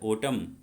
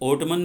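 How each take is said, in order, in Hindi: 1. यह शब्द m पर खत्म होता है, इसमें n नहीं है। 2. यह शब्द एक साफ़ n ध्वनि पर खत्म होता है। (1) "इसका एन नहीं बोला जाता है" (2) "ये ओटमन नहीं बोलते बच्चों"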